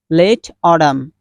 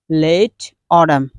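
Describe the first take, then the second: The two takes are said the same way.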